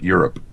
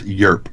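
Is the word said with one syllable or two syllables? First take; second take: two syllables; one syllable. First: The word is said with two syllables. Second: The word is squeezed into one syllable. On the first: The speaker calls it wrong. "not Europe" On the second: The speaker calls it right. "it's just a one syllable word"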